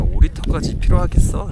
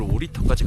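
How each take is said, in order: First: High, loud doubtful question; skeptical. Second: Said in the usual way. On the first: Retold or imitated. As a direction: scoff at carrying that much. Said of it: "라는 생각으로".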